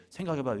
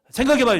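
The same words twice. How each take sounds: First: Said in the usual way. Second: High, loud 생각해봐요; loud challenge. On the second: Acted. Preacher challenging the congregation to think, high and loud. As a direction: throw the challenge out.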